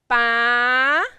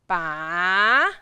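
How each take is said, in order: First: It is said with the second tone. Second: It is said with the third tone. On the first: "And tone number two" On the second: "And tone number three"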